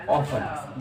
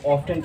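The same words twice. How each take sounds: First: "often" as off-un, silent t; older pronunciation. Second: "often" as off-tun; modern pronunciation. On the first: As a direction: say "often" without the t. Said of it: "उसमें इसकी pronunciation थी". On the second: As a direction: say "often" with the t sounded. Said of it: "अक्सर लोग इसको often कहते हैं". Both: Shown as a demonstration.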